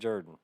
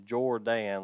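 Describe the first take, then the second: First: The first vowel sounds like 'er' in her. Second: The first vowel sounds like 'or' in for. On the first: Other people say the name this way. The speaker calls it wrong. "people would say Rack Jordan. I'm like, where is there an E in his name" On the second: This is how the name is spelled and meant. The speaker calls it right. "that is Jordan, like Michael Jordan"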